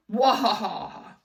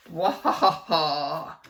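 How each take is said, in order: First: Loud villain cackle; evil laugh. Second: Loud, slow evil cackle; mad scientist laugh. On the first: A narrator's reading. Principal cackling at the kids. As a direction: cackle in triumph. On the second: Shown as a demonstration. Reader shows the kids the evil laugh. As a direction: rub your hands and cackle like a mad scientist. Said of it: "in your most evil, mad scientist voice".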